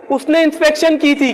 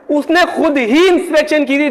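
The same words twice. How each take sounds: First: Said in the usual way. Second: खुद ही pressed, ही most prominent; stress on ही. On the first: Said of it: "मैं बोलूंगा". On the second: Shown as a demonstration. Teacher contrasting two sentences for students, stress on ही. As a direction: lean on खुद ही to mark emphasis. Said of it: "दोनों में फर्क है".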